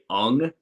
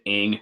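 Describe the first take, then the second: First: The name is said with an 'uh' vowel. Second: The name is said with an 'ih' vowel. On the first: The speaker calls it right. "the correct pronunciation was, was supposed to be, I would say ung" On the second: The speaker calls it wrong. "I've pronounced it ing as well"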